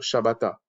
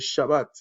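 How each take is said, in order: First: The word ends with an extra a vowel. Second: The word ends on the t, no vowel. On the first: "moi par exemple, je peux vous dire Shabbata" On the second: "on ne prononce pas le A, donc ça fait Shabbat"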